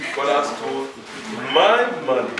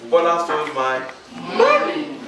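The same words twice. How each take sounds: First: The stress is on "my". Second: The stress is on "money".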